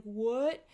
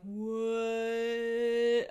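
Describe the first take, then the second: First: Louder, short startled what; startled disbelief. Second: Long, loud, drawn-out slow-motion what; slow-motion shock. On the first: Vlogger spots a stray contact bubble, startled disbelief. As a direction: blurt it out in disbelief. Reacts in retold surprise. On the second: Contact falls toward the sink, slow-motion shock. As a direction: stretch the word out as if time has slowed. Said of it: "slow motion happening in my brain". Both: Retold or imitated.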